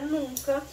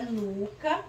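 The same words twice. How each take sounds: First: "nunca" with a nasalised U; nasal NUNCA. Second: "nuca" with a pure oral U; oral vowel NUCA. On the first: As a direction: send the first vowel of "nunca" through the nose. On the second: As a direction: say "nuca" with no N sound before the C. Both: Shown as a demonstration. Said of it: "mudou o som".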